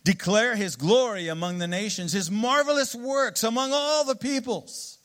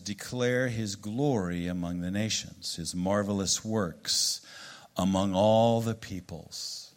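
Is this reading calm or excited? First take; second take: excited; calm. First: It is read in an excited, exclamatory way. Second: It is read in a calm, plain way.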